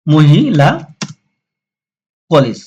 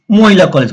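First: "মহিলা" drawn out by syllable, pause, then "কলেজ"; sounded out. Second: Said in the usual way. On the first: Shown as a demonstration. Teacher showing how মহিলা goes in English, sounded out. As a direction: spell out "মহিলা কলেজ" slowly, piece by piece. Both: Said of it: "মহিলাকে কিন্তু ইংলিশে মহিলা এইভাবে বলা হয়".

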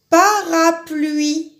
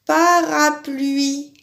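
First: "Parapluie" drawn out slowly, stressing "pluie"; teacher stretching out "Parapluie"; slow syllable reading. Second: Calm, slow "Parapluie"; slow repeat. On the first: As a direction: say "Parapluie" slowly, leaning on the end. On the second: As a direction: repeat "Parapluie" slowly to check the rhyme. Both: Shown as a demonstration. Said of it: "ça finit par I".

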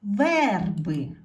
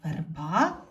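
First: Верби with a loud, long stressed Е; stress on first syllable. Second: Верба with the final А stressed and rising; stress on last syllable. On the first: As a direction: punch the Е in верби, then fall. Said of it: "потрібно змінити слово". (сильний наголос на Е у слові верби) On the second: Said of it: "Наголос падає тут". (наголос на А в кінці слова Верба) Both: Shown as a demonstration.

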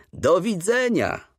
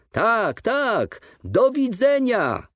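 First: High, slow, heartfelt farewell call; moved call. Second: Repeated farewell cry. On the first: Father calls goodbye to the old teacher from the train, moved. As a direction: call out a goodbye choked with feeling. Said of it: "krzyknął mój ojciec wzruszonym głosem". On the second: Father repeats his goodbye as the train pulls away, crying out. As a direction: cry the goodbye after the departing train, stretched out. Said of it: "powtórzył mój ojciec". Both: A narrator's reading.

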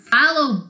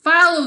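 First: Loud booming call; mock booming order. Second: High, loud squeal; hammed-up squeal. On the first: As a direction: boom it like a captain. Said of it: "boomed Captain Grunto". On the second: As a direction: squeal like a snake. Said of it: "squealed Sliver".

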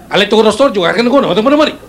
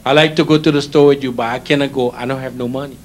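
First: Words jumbled together, higher and rushed; rapid higher-pitched Filipino patter; fast Filipino jumble. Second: Said in the usual way. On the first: Shown as a demonstration. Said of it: "you just jumble all the words together". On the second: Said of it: "I give you the slow way".

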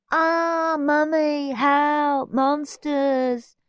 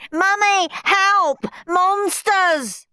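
First: High, drawn-out fake cry; mocking mimicry. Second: Very high, loud cries for help; panicked screaming. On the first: Henry mimics Steve's screams, mocking. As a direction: mimic a scaredy-cat in a teasing wail. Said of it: "mimicked Henry". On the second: Steve fleeing to his mother, panicked screaming. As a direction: shriek in terror for rescue. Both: A narrator's reading.

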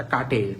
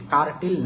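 First: কাটেল with no র sound, ka-tel; silent-R pronunciation. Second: কার্টেল with the র sounded before টেল; mispronounced কার্টেল. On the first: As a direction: drop the R and say কাটেল. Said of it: "উচ্চারণটা কাটেল". (কাটেল, র উচ্চারণ না করে) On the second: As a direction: say কার্টেল with an audible R, kar-tel. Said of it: "কার্টেল না, উচ্চারণটা কাটেল". (কার্টেল, র উচ্চারণ করে) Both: Shown as a demonstration.

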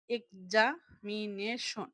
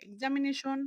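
First: এক্সামিনেশন slowly split, every syllable apart; teacher breaking এক্সামিনেশন into pieces; broken into syllables. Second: Said in the usual way. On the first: Shown as a demonstration. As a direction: sound out এক্সামিনেশন beat by beat with small gaps. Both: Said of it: "ভেঙে ভেঙে".

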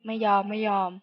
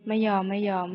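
Both takes have the same delivery.

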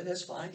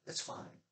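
First: Said in the usual way. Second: Breathy whisper, no voice; a sly whispered afterthought; whispered aside. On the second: Shown as a demonstration. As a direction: drop to a whisper for the repeat. Repeat of the line, whispered.

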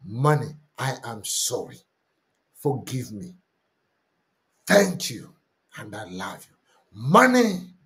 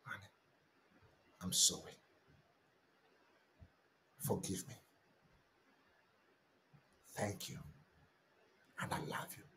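First: A sincere confession, said simply; earnest prayer. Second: Much softer, near-whispered confession; hushed prayer. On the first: Pastor leads the congregation in an earnest confession. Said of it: "repeats the confession prayer". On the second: Pastor repeats the confession in a hushed, whispered prayer. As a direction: breathe it like a secret prayer. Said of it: "confession dropped to a whisper". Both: Shown as a demonstration.

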